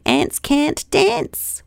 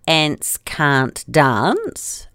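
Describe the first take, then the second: First: It is said in an American accent. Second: It is said in a New Zealand accent.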